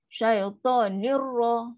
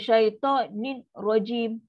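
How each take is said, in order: First: The n merges fully into the r. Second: The n is pronounced clearly and separately. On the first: The speaker calls it right. "Tak ada dengung. Masuk terus" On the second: The speaker calls it wrong. "itu jadi izhar"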